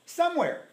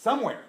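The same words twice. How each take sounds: First: "Somewhere" said much higher, pressed; high, insistent "Somewhere"; emphatic repeat. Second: Said in the usual way. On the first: Shown as a demonstration. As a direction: hit "Somewhere" again, higher.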